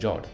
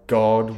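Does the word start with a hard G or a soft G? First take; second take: soft G; hard G. First: The word begins with a soft J sound. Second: The word begins with a hard G sound. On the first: The speaker calls it wrong. "saying Jod" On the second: The speaker calls it right. "with the hard G"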